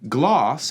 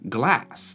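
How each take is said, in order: First: The vowel is a long back A sound. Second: The vowel is a short front A sound. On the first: This is the southern standard pronunciation. "So gloss in the North would be glass" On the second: This is the northern pronunciation. "in the North would be glass, like we say in America"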